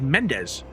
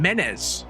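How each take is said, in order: First: The D sound in the name is pronounced. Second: The D sound in the name is dropped. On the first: The speaker calls it right. "It said Mendez" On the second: The speaker calls it wrong. "not pronouncing the D"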